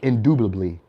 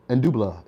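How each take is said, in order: First: The word is pronounced in full, all syllables intact. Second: The word is garbled, with syllables dropped and changed. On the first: The speaker calls it right. "they mispronounce the words like indubitably" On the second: The speaker calls it wrong. "They may be like indub indubila, indubla"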